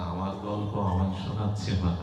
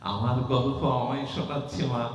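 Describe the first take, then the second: First: Said in the usual way. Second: Delighted god's musing. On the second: Acted. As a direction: marvel at hearing his own story. (উঁচু স্বরে মুগ্ধ ভগবানের স্বগতোক্তি) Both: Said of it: "ভগবান মনে মনে বলছেন".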